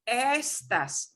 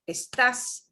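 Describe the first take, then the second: First: The stress is on the first syllable. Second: The stress is on the last syllable. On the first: It means these things. "the word estas means these things" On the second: It is the verb. "We punch the a at the end"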